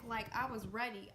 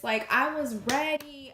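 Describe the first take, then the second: First: Said in the usual way. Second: Much louder and slow, every word hit; emphatic shout. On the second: Real, not acted. Telling viewers how ready she was, a slow loud declaration. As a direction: slam the point home. Peak of retold hype.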